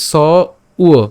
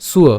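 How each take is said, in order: First: স and উয় said apart, "sa... uwa"; split into sounds. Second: সুয় blended into one "suwa"; স and উয় run together as সুয়; joined sounds. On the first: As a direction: break it as স, pause, উয়. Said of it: "সঠিকভাবে ভাঙলে আমরা পাবো স উয়". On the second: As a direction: say সুয় together with a w glide, no hard b. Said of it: "একসাথে উচ্চারণ করলে সুয়". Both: Shown as a demonstration.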